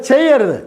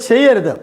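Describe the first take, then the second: Both takes have the same delivery.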